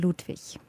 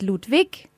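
First: It is said the non-Bavarian way. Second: It is said the Bavarian way.

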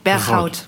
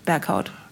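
First: The name is pronounced with Dutch sounds. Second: The name is pronounced with German sounds. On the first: "auf Holländisch wird der Berghout ausgesprochen" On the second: "Und auf Deutsch wahrscheinlich"

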